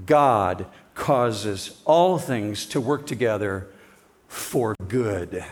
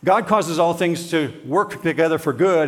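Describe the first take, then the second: First: "God causes all things to work together for good" read slowly and low, with weight on "all"; slow solemn reading. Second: Said in the usual way. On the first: Shown as a demonstration. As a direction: lean into "all" and let each word land, lower and slower. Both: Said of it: "chapter eight, verse twenty-eight".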